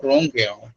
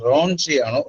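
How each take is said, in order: First: "റോങ്" ending in a k sound plus vowel; hard K pronunciation. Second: "റോങ്" ending in a ch sound plus vowel; soft CH pronunciation. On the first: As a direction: say റോങ് as "RON-kai", with a hard k. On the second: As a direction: say റോങ് as "RON-chai", with a ch. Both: Shown as a demonstration. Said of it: "ഇതിന്റെ pronunciation ഇത്".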